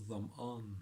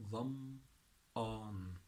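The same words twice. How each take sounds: First: Said in the usual way. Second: ظمآن slowly, split into "dham" and "aan"; syllable-by-syllable demo. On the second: Shown as a demonstration. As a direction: stretch both syllables of ظمآن, pausing between them. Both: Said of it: "it's quite a difficult word".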